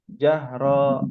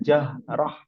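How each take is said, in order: First: The final syllable is drawn out with a long vowel. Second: The final syllable is cut short, ending in h. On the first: The speaker calls it wrong. "bukan jahro" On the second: The speaker calls it right. "tidak panjang. Dia langsung dipotong"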